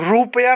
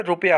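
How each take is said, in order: First: रुपया with a long first oo; wrong long vowel. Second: रुपया with a short first u; correct short vowel. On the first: Teacher showing students the mistake, vowel overlong. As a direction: say रुपया as "roop-ya". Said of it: "नहीं होता है". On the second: Teacher giving students the right form, short vowel. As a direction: say रुपया as "rup-ya". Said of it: "होता है". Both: Shown as a demonstration.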